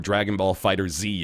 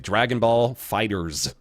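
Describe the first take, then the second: First: The last word is said as 'fighter Z'. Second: The last word is said as 'fighters'. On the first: This goes against the publisher's preferred way. "if you want to be pedantic and annoy Namco" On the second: This is how the publisher says it. "It's fighters"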